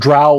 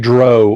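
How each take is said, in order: First: The vowel sounds like the vowel in cow. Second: The vowel does not sound like in cow. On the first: The speaker calls it right. "I pronounce drow like plow or cow or now" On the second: The speaker calls it wrong. "I don't say dro"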